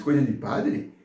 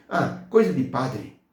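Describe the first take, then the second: First: Questioning repeat, rising at the end; incredulous echo. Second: Slow, offhand brush-off with a falling end; mock dismissive. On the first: Retold or imitated. Church member echoing the blind man's remark, taken aback. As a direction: throw the words back as a puzzled question. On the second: Blind man dismissing the church to a member, scornfully offhand. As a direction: imitate someone writing it off, drawn out.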